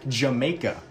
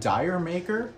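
First: It is said with an accent, like 'Jamaica'. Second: It is read literally as 'dyer maker'. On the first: The speaker calls it right. "you say it with an accent, so it's actually called Jamaica" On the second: The speaker calls it wrong. "It looks like Dyer Maker"

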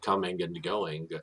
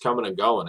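First: The endings are said without that regional accent. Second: The endings are said with a New Jersey accent.

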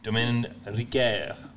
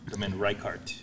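First: The name is said with French pronunciation. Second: The name is said with English pronunciation.

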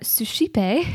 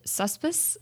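First: The p sound comes near the end of the word. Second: The p sound comes in the middle of the word. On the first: The speaker calls it right. "But it is actually suscipe" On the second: The speaker calls it wrong. "in my mind, I pronounced it suspice"

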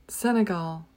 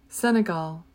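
The two takes are said the same way.

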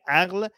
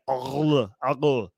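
First: Said in a Persian way, further forward in mouth. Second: Said in an Arabic way, deeper in the throat. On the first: "It is in Persian" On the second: "but they're like aql"

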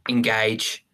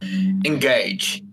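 First: It is said in the speaker's ordinary voice. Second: It is said in a put-on commanding character voice. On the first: "I was going to do an impression of him then, but I wouldn't have been able to" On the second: "I'm bald. I'm cool at Shakespeare"

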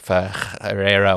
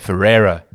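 First: The name is said with a Portuguese pronunciation. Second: The name is said with a South African pronunciation. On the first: "I'm going to mess up the pronunciation now, but it was like Ferreira or something" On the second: "in South Africa, we say Ferreira"

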